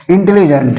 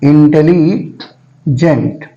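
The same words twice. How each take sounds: First: Said in the usual way. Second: intelligent slowly, pausing before gent; intelligent split into drawn-out parts; syllable breaks. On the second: Shown as a demonstration. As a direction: draw out Intelli, stop, then add gent. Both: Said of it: "कितनी बार में करते हैं".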